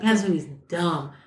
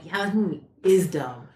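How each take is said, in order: First: Said in the usual way. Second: "is" stressed, drawn into firm agreement. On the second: Retold or imitated. Alex agrees with her about the film, stressing "is". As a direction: lean on "is" in agreement. Alex's emphatic agreement, retold.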